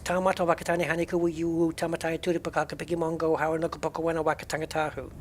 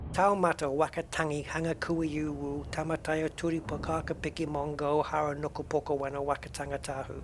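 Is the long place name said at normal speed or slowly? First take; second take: normal speed; slowly. First: The name is said at normal speed. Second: The name is said slowly.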